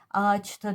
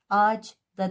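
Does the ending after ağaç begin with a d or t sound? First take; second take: t; d. First: The ending begins with a hard t sound. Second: The ending begins with a soft d sound. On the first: The speaker calls it right. "ağaçta diyoruz" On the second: The speaker calls it wrong. "Ağaç da demiyoruz"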